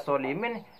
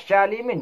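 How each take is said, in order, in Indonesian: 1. Dimulai dengan bunyi s yang berat dan emfatis. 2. Dimulai dengan bunyi sh. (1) "dibaca solimin, ya salah" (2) "dibaca syalimin juga salah"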